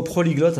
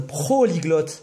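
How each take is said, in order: First: Said in the usual way. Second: "Prolyglotte" stretched out slowly, each syllable drawn; slow, savoured word. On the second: Shown as a demonstration. Joking to a friend about his English, slow proud "Prolyglotte". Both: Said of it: "il y a le prolyglotte".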